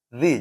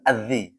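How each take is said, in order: First: It starts directly on the z sound. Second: It starts with a glottal stop and vowel. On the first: The speaker calls it right. "Jadi langsung za, zi" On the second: The speaker calls it wrong. "jangan azzi. Berarti kan depannya hamzah"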